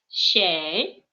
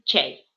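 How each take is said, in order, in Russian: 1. Слово начинается с мягкого звука sh. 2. Слово начинается со звука ch. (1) "в литературном татарском языке ... нужно говорить вместо буковки ч щ" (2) "мой ди м мишарский диалект ... мы говорим ч"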